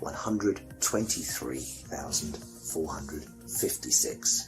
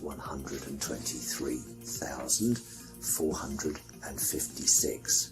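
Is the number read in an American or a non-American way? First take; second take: American; non-American. First: The number is read in an American way. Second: The number is read in a non-American way.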